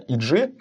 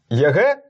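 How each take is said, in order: First: The letters are read with English letter names. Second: The letters are read with Russian letter names. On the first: The speaker calls it right. "А хотя правильно, EG" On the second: The speaker calls it wrong. "называет команду Evil Geniuses как ЕГ"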